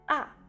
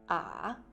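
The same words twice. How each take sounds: First: The pitch falls quickly from high to low. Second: The pitch dips low then comes back up. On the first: "A au quatrième ton, le son descend rapidement" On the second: "A au troisième ton, la prononciation fait un virage"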